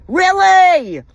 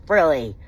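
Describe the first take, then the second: First: High, loud, drawn-out "Really?"; incredulous outburst. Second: Said in the usual way. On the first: Real, not acted. Wife ranting about husband's mistress, incredulous outburst. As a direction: cry it out in outraged disbelief. Angry rant in disbelief.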